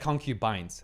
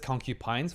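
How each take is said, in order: First: The word ends with a 'bines' sound. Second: The word ends like 'porcupines'. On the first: The speaker calls it right. "I'll be correcting my pronunciation" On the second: The speaker calls it wrong. "I've pronounced as concubines ... they think about ... porcupines"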